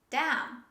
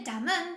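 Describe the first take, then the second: First: The final N sound is silent. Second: The final N sound is pronounced. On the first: The speaker calls it right. "we don't say the letter N when we say them" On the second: The speaker calls it wrong. "Don't say damn"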